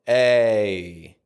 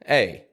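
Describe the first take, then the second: First: The sound is drawn out slowly. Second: The sound is said quickly. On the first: "how I pronounced it when it was in slow motion" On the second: "how I pronounce it when it's quicker in a regular sentence"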